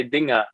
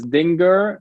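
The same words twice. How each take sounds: First: Dinger said the German way, ending in "-a"; German pronunciation. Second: Dinger said the English way, with hard g and r; English pronunciation. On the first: Guest pronounces his surname for the host, German pronunciation of Dinger without the r. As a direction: say "Dinger" as in German, dropping the final r. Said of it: "in German you say Dinger". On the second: Guest pronounces his surname for the host, English pronunciation of Dinger with an r. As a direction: say "Dinger" as in English, sounding the final r. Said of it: "in English it's Dinger".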